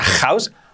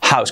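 First: The h is not a soft aspirated breath. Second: The h is a soft aspirated breath. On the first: The speaker calls it wrong. "que no sea house" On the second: The speaker calls it right. "aspirada así"

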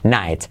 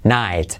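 First: The word begins with an N sound. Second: The word begins with an N sound.

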